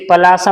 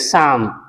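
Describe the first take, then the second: First: The P and L are both sounded. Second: The P and L are both silent. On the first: The speaker calls it wrong. "इसे पलासम नहीं पढ़ेंगे" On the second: The speaker calls it right. "इसे केवल पढ़ेंगे शाम"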